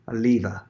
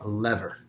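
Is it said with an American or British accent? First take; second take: British; American. First: It is said with a British accent. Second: It is said with an American accent.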